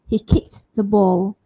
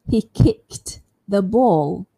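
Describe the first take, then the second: First: The T in kicked is said lightly. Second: It is slow, with a clear T in kicked. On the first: "I can say the T lightly or softly" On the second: "If I say it slowly, it sounds quite clear"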